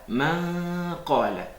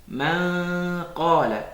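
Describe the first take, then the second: Both takes have the same delivery.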